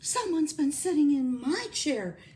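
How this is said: It is said in a medium, mellow voice.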